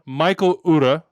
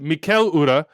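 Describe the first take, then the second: First: The first name sounds like English Michael. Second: The first name has the Danish pronunciation. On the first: "he said Michael Ura" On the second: "they said in Danish, "What's your name?" He said Mikel Ura"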